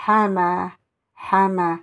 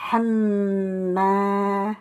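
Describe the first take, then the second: First: Hama with a single short m; hama without shidda. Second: Hamma with the m doubled and held, slow; hamma with shidda. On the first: Teacher reading hama without the shidda. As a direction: say hama lightly, no doubled m. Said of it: "Sans la shidda, je dirais". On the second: Teacher showing hamma with the shidda, drawn out. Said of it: "Vous avez une shidda, je dirais". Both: Shown as a demonstration.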